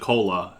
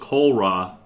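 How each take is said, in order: First: Only a single L sound is heard. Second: An L sound is followed by an R sound. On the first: The speaker calls it right. "But they just pronounce it cola" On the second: The speaker calls it wrong. "I used to say the word cola was kolra because that's how it looked like it was spelled"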